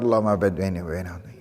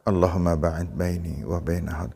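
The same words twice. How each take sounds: First: It is recited very quickly and rushed. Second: It is recited at a moderate, normal pace. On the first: The speaker calls it wrong. "Tapi juga jangan terlalu cepat" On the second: The speaker calls it right. "Dibaca tidak terlalu pelan, tidak terlalu cepat, biasa"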